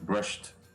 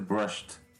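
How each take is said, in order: First: The word ends with a t sound. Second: The word ends with a t sound.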